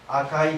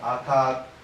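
First: The word ends with the vowel sequence ai. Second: The word ends with a long aa vowel.

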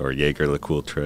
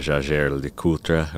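First: The name has an American pronunciation. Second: The name has a French-style pronunciation.

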